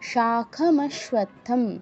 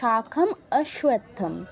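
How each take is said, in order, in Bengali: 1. শব্দ দুটি 'a' স্বরধ্বনি ছাড়াই একসাথে মিশে যায়। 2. শব্দ দুটি আলাদা করা হয় এবং 'a' স্বরধ্বনিটি ফিরিয়ে আনা হয়। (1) "আমরা একসাথে বলে যাব" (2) "যদি আমাদের সন্ধি ভাঙতে হয় তখন হতো"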